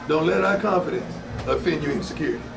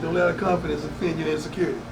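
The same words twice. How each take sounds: First: The sentence is spoken very slowly. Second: The sentence is spoken at a normal pace.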